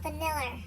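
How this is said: It is said in an Australian accent.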